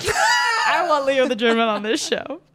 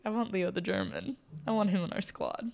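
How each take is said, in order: First: Loud, slow, higher yell; shouting. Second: Hushed, under the breath; quiet. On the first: Pretend. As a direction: belt it out like a fan. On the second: Retold or imitated. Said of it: "I almost made the most heinous comment".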